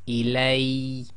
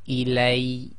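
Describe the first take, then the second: First: The final ya sound is short and emphasized. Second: The same.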